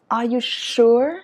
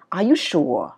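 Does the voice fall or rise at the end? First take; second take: rise; fall. First: The voice rises at the end. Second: The voice falls at the end. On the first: The speaker calls it right. "mình sẽ là are you sure?" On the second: The speaker calls it wrong. "Chứ nó không đọc là"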